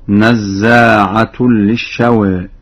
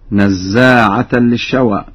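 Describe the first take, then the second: First: نزاعة ends in -tun; very slow chant, u vowel on the ta of نزاعة; Warsh raised ta. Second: نزاعة ends in -tan; slow reading, a vowel on the ta of نزاعة; standard accusative reading. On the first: Teacher demonstrates Warsh's reading, -tun ending. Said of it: "قرأها ورش برفع التاء هكذا". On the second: Teacher quotes the verse before Warsh's version, -tan ending. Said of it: "قرأها ورش برفع التاء". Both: Shown as a demonstration.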